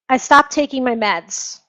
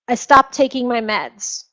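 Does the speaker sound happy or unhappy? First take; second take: unhappy; unhappy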